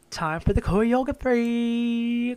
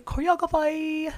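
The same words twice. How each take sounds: First: "choreography" slurred as "coyography", slow; mangled choreography. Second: "Choreography" sung out high and clearly; sing-song correction. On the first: Host announcing the next part, stumbling on "choreography". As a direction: stumble over "choreography", saying it slowly. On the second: Host correcting herself with a high sing-song "Choreography". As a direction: lilt "Choreography" up high, fixing the word. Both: Shown as a demonstration.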